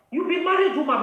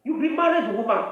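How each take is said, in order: First: "married" pushed higher in a scolding repeat; scolding "married" lifted for emphasis; insistent repeat. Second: Said in the usual way. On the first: Real, not acted. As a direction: hammer home "married", higher.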